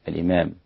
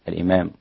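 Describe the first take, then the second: No difference in how they are said.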